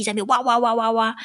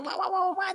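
First: Said in the usual way. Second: High mock baby crying; mimicking the baby's crying; baby wail. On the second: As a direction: wail like a fussy infant. Imitating baby wailing.

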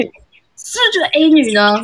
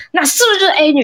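First: Accusing repeat. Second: Accusing question. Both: Retold or imitated. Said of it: "那个男就说：".

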